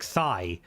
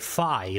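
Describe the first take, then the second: First: The word begins with a plain t sound. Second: The word begins with a th sound. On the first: This is how Irish speakers say it. "We would say" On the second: This is how people from England or the north say it. "they pronounce the T H like"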